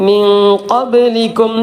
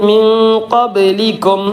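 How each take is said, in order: The two takes are said the same way.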